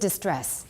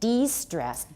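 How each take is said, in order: First: The first syllable is pronounced 'dis'. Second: The first syllable is pronounced 'dee'. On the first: The speaker calls it wrong. "不是 distress, D I S 就不对了" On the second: The speaker calls it right. "D E S T R E S S"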